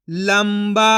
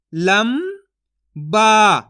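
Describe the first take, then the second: First: Said in the usual way. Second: लंबा split as "लं", long pause, "बा"; syllable by syllable. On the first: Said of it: "तो मिलके बन जाएगा". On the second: Shown as a demonstration. Teacher sounds out लंबा for learners, syllable by syllable. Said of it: "एक एक अक्षर का उच्चारण करके".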